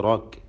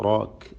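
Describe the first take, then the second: The two takes are said the same way.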